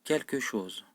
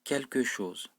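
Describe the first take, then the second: Both takes have the same delivery.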